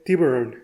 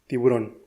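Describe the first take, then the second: First: The stress falls as in English pronunciation. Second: The stress falls as in Spanish pronunciation. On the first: "como se hace en su lengua de origen" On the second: "en que se hace en tu lengua natal"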